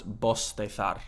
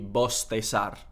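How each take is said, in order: First: The s sounds like s, the z like th. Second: Both the s and the z sound like s. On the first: "distinción, which would be pronounced bostezar" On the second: "ceseo, everything is an S sound"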